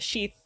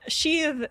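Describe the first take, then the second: First: The final th sound is sharp. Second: The final th sound is soft. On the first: It is the noun. "sheath as a noun is sharp" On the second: It is the verb. "sheathe as a verb, I would say, is soft"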